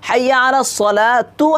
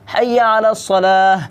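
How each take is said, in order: First: The last word ends with a sounded 'tu' syllable. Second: The last word stops on 'salah' with no 'tu'. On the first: The speaker calls it wrong. "আমরা অনেকে এটা ভুল করে থাকি" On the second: The speaker calls it right. "হরকতটা কি পড়া যাবে না"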